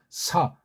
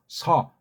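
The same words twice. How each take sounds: First: The sound strikes hard against the roof of the mouth. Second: The sound is made deep back in the throat. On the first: "입천장에 좀 세게 소리를 부딪히면서 내보세요" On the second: "목구멍 안쪽에서 이거 시옷을 해서"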